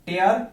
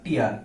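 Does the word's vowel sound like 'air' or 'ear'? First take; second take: air; ear. First: The vowel sounds like the word 'air'. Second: The vowel sounds like the word 'ear'. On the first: It is a verb meaning to rip something. "যখন আপনি টেয়ার উচ্চারণ করবেন তখন সেটা ব্যবহার হবে verb হিসাবে" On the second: It is a noun meaning a drop from the eye. "যখন আপনি উচ্চারণ করবেন হচ্ছে টিয়ার, তখন সেটা নাউন হবে"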